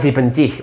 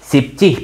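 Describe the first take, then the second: First: The word is said in three syllables. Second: The word is said in two syllables. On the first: The speaker calls it wrong. "bukan si bencih" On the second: The speaker calls it right.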